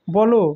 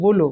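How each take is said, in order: First: বলো said as "bɔlo"; open vowel in বলো. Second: বলো said as "bolo"; closed vowel in বলো. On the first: Teacher showing the unmarked word, বলো with open ɔ. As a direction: say বলো with an open "aw" in the first syllable. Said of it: "বলো থাকবে না". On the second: Teacher showing the apostrophe's effect, বলো as "bolo". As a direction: say বলো with a rounded closed "o" first. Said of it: "সেটাকে বলবো". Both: Shown as a demonstration.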